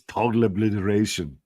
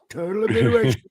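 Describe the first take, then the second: First: It is said in a heavy Austrian-style accent. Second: It is said in the speaker's ordinary accent.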